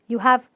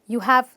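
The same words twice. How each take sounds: No difference in how they are said.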